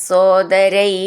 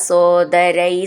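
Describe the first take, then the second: The two takes are said the same way.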